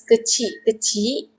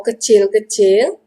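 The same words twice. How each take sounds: First: "kecil-kecil" as kechi-kechi, no final l; informal pronunciation. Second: "kecil-kecil" as kechel-kechel, each final l sounded; full pronunciation. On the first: Teacher asks why we repeat it, informal "kecil-kecil" without l's. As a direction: leave the l off both halves of "kecil-kecil". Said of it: "we say kecil-kecil je". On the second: Teacher offers the proper form, "kecil-kecil" with full l's. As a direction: sound the -el ending in both halves of "kecil-kecil". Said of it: "the proper word is kecil". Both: Shown as a demonstration.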